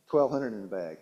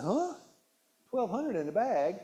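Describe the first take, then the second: First: Said in the usual way. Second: A high startled "Huh?" then a disbelieving question; can't believe the number; astonished at the chip bag's calories; incredulous. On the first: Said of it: "Darlene said". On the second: Retold or imitated. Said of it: "I said".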